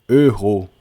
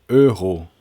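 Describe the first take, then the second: The two takes are said the same way.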